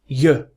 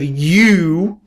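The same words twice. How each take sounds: First: The word has a weak schwa vowel. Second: The word has a full, strong vowel. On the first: "we say you" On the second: "Instead of you"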